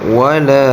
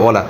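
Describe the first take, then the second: First: The final vowel is drawn out long. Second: The final vowel is cut short. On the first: The speaker calls it right. "একাল টান হবে" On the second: The speaker calls it wrong. "আমরা বলি ওয়ালা, টান দেই না"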